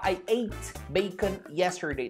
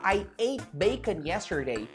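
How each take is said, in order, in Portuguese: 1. O T no fim de 'ate' é claramente pronunciado. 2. O T no fim de 'ate' é omitido. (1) "você não precisa falar I ate bacon yesterday" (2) "você pode falar I ate bacon yesterday"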